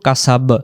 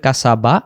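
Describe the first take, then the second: First: The word ends on the consonant 'b'. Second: The word ends with a final 'a' vowel. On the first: This is how it is read when stopping at the end. "কিন্তু আমরা উচ্চারণ করব কাসাব" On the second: This is the full written form with its final vowel. "জবর আছে এখানে বা অক্ষরে"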